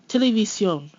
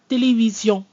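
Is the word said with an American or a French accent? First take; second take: American; French. First: It is said with an American accent. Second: It is said with a French accent. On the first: "American style" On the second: "more in the French style"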